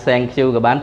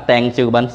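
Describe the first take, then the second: The two takes are said the same way.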